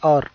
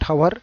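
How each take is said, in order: First: The word begins with a vowel sound. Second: The word begins with an h sound. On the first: The speaker calls it right. "హెచ్ ఈ silent here, it's అవర్" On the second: The speaker calls it wrong. "It's not హవర్"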